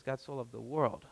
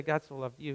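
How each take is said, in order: First: Soft, low "God so loved the world" as the right version; stress on the world. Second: Quiet "God so loved you" as the wrong version; stress on you. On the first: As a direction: end firmly on "world". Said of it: "He says". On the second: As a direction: mark "you" as the wrong word. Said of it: "Jesus doesn't say". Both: Shown as a demonstration.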